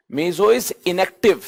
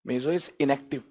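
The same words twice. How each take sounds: First: "Meso is inactive" spelled out very slowly, each word drawn apart; slow emphatic statement. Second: "meso is inactive" repeated much softer and lower. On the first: Teacher to students, dictating the key rule slowly. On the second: Teacher repeating the rule, quietly, to let it sink in. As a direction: echo it quietly to yourself. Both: Shown as a demonstration.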